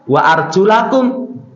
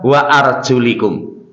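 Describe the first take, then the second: First: The vowel after arjul is an a. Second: The vowel after arjul is an i. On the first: The feet are washed with flowing water. The speaker calls it right. "kalau bacaannya disesuaikan dengan hadis Nabi" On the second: The feet are only wiped. The speaker calls it wrong. "Kemudian mereka membaca wa arjulikum"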